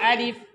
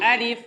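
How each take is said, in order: No difference in how they are said.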